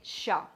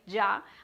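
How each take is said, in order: First: The word starts with an Argentine sh-like sound. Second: The word starts with a Medellín-style Y sound. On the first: "in Argentina, they say sha" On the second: "Ya is the one that I say because I am from Medellin"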